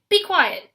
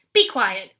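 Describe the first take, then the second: First: High, loud screaming repeat; higher scream. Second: Loud shout to silence her; screaming. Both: A narrator's reading.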